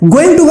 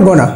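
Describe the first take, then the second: First: It is said as two full words. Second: It is reduced to one short word. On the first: The speaker calls it wrong. "গোয়িং টু কখনো বলবো না" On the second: The speaker calls it right. "কি বলবো গনা"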